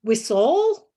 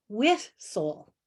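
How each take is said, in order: First: Whistle said WHIS-tle, first syllable loud and rising; whistle, natural stress up front, louder. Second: Whistle said whis-TLE, second syllable stressed, slow; playfully misstressed whistle, slow; stress on the wrong syllable. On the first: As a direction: lean on WHIS in whistle as a question. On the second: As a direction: drag whistle out with the weight on the end. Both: Shown as a demonstration. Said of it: "Is it whistle or whistle".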